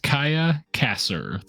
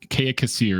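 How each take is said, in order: First: The first name is said as 'Kaya'. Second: The first name is said as 'Kea'. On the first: The speaker calls it right. "Her name is Kaya Kasser" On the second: The speaker calls it wrong. "Kea Kassir is what I told you guys"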